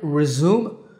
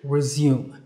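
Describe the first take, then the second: First: It is said in an American accent. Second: It is said in a British accent. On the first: "So American resume" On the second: "British resume"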